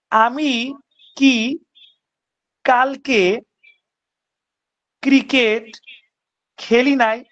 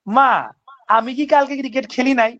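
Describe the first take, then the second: First: Drawn out with long pauses between words; slow, word by word. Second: Said in the usual way. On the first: Shown as a demonstration. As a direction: lay each word down slowly, one at a time. Teacher says question slowly, word by word. (ধীরে ধীরে, প্রতিটি শব্দ আলাদা করে)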